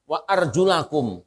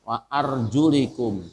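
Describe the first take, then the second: First: The vowel after the l is a. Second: The vowel after the l is i. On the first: This is the reading attributed to another transmitter. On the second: This is the reading attributed to one transmitter.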